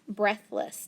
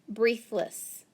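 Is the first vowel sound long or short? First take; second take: short; long. First: The first vowel is a short E sound. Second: The first vowel is a long E sound. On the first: The speaker calls it right. "I can make it a short E and a silent A" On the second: The speaker calls it wrong. "let's try it with the long E first"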